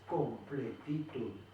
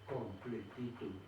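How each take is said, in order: First: The word is broken into separate syllables. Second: The word is said smoothly as one unit.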